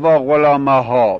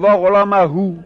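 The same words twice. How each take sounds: First: وا غلامها ending in a long a; wrong form. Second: وا غلامهو ending in u, rising; teacher giving the correct vocative ending; correct form. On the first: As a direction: say وا غلامها with final a, the rejected form. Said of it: "نمیگیم". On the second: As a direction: say وا غلامهو with final u stressed. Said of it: "میگیم". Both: Shown as a demonstration.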